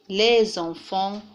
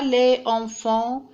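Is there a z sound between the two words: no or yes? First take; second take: yes; no. First: A z sound links the two words. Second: The final s is silent, with no link. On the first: The speaker calls it right. "mais on dit les enfants, on prononce le son Z" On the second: The speaker calls it wrong. "on ne dit pas"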